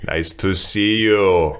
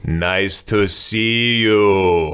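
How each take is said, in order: First: Put-on slow, heavy Austrian-accented English; a light Arnold voice, slowly pushing out each word; Arnold-style Austrian English. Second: Put-on very slow, effortful Austrian-accented English; drunk Austrian pushing out English. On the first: Repeating the villager's line as a light Arnold impression, slow. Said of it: "It was Arnold". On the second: Retelling the drunk villager's farewell in very slow Austrian-accented English. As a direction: drag each word out like a drunk Austrian with little English. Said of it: "he just pushes out this English".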